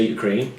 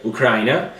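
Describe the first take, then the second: First: Ukraine said you-KRAIN, no final vowel; English pronunciation. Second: Ukraine said oo-KRAI-neh with a vowel on the end; Italian pronunciation. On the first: Shown as a demonstration. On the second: Real, not acted. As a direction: Ukraine in Italian style, ending in -eh. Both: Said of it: "Ukraine, that's what you say".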